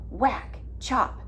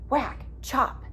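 Both takes have the same delivery.

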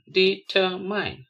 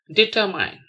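First: "determine" slowly as de, ter, mine; three separate beats on "determine"; syllable by syllable. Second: Said in the usual way. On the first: Shown as a demonstration. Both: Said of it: "spell the word".

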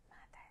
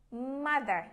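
First: Mother said barely audible, much softer; very soft echo. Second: Said in the usual way. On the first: Shown as a demonstration. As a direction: drop to a tiny echo. Class echo game, loud then soft. (đọc lại thật nhỏ)

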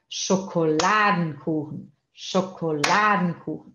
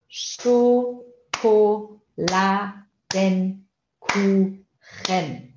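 First: "Schokoladenkuchen" as one word, stress on LA of Schokoladen; ênfase em Schokoladen. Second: "Schokoladenkuchen" very slowly, in six separate beats; sílaba por sílaba. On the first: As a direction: lean on "Schokoladen", let "kuchen" fall away. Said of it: "O Schokoladen tem a entonação". ("Schokoladenkuchen" com a entonação em "Schokoladen") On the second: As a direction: chant out each syllable of "Schokoladenkuchen" evenly. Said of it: "separe elas em sílabas". ("Schokoladenkuchen" bem lento, sílaba por sílaba) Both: Shown as a demonstration.

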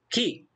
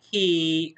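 First: كي as a brief 'ki'; one beat on كي, not held; short vowel. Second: كي as a held 'kee'; long vowel. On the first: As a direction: say كي short and quick. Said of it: "قصير". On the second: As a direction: draw out the vowel in كي. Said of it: "صوت طويل". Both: Shown as a demonstration.

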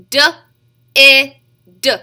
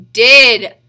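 First: "D, I, D" as duh, short i, duh; sounded out. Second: Said in the usual way. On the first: Shown as a demonstration. Teacher tapping out the next word, sounded out. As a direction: isolate each sound of "D, I, D", loud vowel. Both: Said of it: "Get your tapper out and ready".

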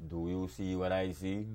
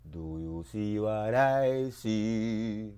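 First: Said in the usual way. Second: Slow, stretched-out chant; slow drawn refrain. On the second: Acted. Poet slowly chants the refrain back at listeners. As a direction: draw every word out.

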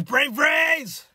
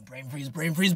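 First: Pained shout, high and loud; brain freeze. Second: Strained pained muttering; brain freeze. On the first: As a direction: burst out yelling from the ache. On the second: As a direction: groan it while the ache hits. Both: Real, not acted.

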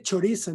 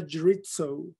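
First: Said in the usual way. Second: "chorizo" as American chuh-REET-soh; anglicized pronunciation. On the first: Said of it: "Se dice chorizo". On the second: Shown as a demonstration. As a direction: say "chorizo" with English r and ts. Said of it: "no chorizo".

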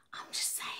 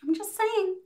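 First: Whispered aside, no voice at all. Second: Said in the usual way. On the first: Real, not acted. Vlogger whispers a cheeky aside to viewers, whispering. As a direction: drop to a breathy whisper.

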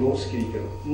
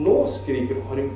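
First: Softer, muttering to yourself; mock irritated adult muttering; muttered complaint. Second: Slower, dragged-out grumble; weary adult repeating the gripe; slow repeated complaint. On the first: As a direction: grumble it under your breath. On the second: Retold or imitated. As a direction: draw the complaint out wearily. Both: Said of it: "Så sier vi".

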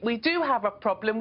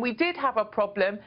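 First: Emphasis landing on "do"; stress on do. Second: Emphasis landing on "did"; stress on did. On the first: Guest insisting to the host the problem exists, stress on "do". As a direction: lean on "do" to insist it is true. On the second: Guest insisting the problem already existed, stress on "did". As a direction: lean on "did" to insist it was true. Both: Real, not acted.

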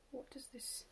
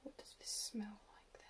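First: Soft unvoiced whisper; hushed, breathy question. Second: Whispered full question. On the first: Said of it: "whispers a half question". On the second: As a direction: hush it, ask softly. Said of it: "repeats it, whispered in full". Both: Real, not acted.

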